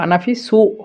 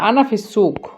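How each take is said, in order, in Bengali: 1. শেষ শব্দটি একটি glottal stop দিয়ে শেষ হয়। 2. শেষ শব্দটি একটি গভীর q ধ্বনি দিয়ে শেষ হয়। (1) "যদি কফটাকে হামজা হিসাবে ব্যবহার করি তাহলে বলবো" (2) "শুষ্কের সুক ক, এটা হলো ক।"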